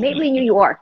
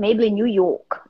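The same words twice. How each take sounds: First: It is said in an American accent. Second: It is said in a British accent.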